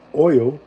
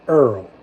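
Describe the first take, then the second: First: It is said with a standard accent. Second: It is said with a New Orleans accent. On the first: "instead of oil" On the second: "we say Earl"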